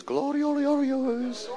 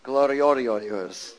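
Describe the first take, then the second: First: High slow Gloriorios drawn out like a call; far-off echoing Gloriorios; echoing through valleys. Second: Slow drawn-out Gloriorios, every syllable stretched; hillbilly-style Gloriorios; mountain way of saying it. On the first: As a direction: sing Gloriorios out across the valleys. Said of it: "Then it echoes through all the valleys". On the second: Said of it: "that's how they say it in the mountains". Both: Retold or imitated.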